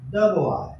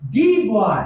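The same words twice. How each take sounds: First: Put-on the said short "duh" before boy. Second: Put-on the said long "thee", leaning on boy. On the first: Teacher demonstrating the before a consonant, short "duh". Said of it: "उसके पहले द लगा है, तो इसको हम उच्चारण भी द करते हैं". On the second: Teacher demonstrating emphatic the, a long "thee". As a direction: stretch the into "thee" to point at this boy. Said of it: "यहाँ पर दी का उच्चारण होगा". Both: Shown as a demonstration.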